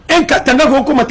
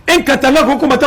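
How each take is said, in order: Both takes have the same delivery.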